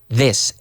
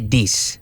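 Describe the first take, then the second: First: The word begins with a th sound. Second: The word begins with a hard d sound. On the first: The speaker calls it right. "you have to stick your tongue out" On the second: The speaker calls it wrong. "not a dis"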